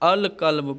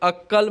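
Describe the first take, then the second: First: The l is clearly heard before the k. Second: The l merges into a doubled k sound. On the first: The speaker calls it right. "बल्कि अल कल्ब पढ़ता हूँ" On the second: The speaker calls it wrong. "अक्कल्ब नहीं पढ़ता हूँ"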